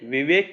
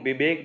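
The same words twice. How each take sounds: First: The word begins with a 'v' sound. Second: The word begins with a 'b' sound.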